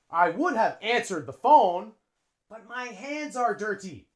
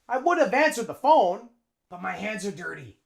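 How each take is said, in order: First: Every word is said fully and separately. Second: The words are reduced and run together. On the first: The speaker calls it wrong. "a native English speaker wouldn't say that" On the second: The speaker calls it right. "we link them"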